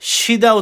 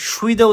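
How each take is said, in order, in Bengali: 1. প্রথম সিলেবলটি সাধারণ 'si'। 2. প্রথম সিলেবলে 'swi' গ্লাইড আছে। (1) "সিদা উচ্চারণ হবে" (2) "এটা সুইদা উচ্চারণ হবে না"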